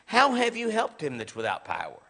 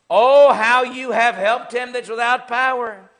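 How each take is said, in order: First: It is asked as a sincere question. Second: It is exclaimed with a sarcastic tone.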